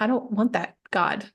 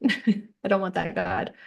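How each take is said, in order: First: Said in the usual way. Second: Slower, with a laugh. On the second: Real, not acted. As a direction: laugh through it as you repeat it.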